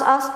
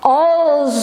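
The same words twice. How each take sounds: First: The final consonant is a hissing s sound. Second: The final consonant is a buzzing z sound. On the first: The speaker calls it wrong. "Kadang saya als als" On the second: The speaker calls it right. "harusnya als"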